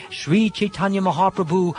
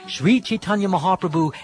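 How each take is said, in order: Both takes have the same delivery.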